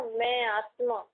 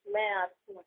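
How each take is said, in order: First: Slow, settled मैं आत्मा with a falling close; unhurried, deliberate मैं आत्मा; slow inner affirmation. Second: Inner whisper. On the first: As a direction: say मैं आत्मा slowly, feeling it. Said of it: "जब हम अंदर ऐसा बोलते हैं ना". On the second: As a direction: murmur it to yourself as the soul. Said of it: "धीरे बोलना". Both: Shown as a demonstration.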